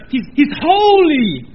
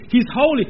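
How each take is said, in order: First: "holy" drawn out, louder and higher; emphatic awe. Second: Said in the usual way. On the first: Shown as a demonstration. Preacher correcting the congregation, stretches "holy" with force. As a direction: lean hard into "holy" slowly. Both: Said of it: "No, no, no, no".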